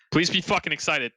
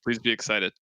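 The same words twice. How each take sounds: First: Higher-pitched, exasperated urging; insistent plea. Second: Said in the usual way. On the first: Real, not acted. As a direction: demand that they share the excitement. Repeats the plea more insistently.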